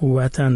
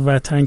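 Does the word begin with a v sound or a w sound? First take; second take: w; v. First: The word begins with a w sound. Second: The word begins with a v sound. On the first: This is the older original form. The speaker calls it right. "وطن درستش بوده" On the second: This is the modern Iranian form. The speaker calls it wrong. "وطن که ما میگیم این ایرانی شده است"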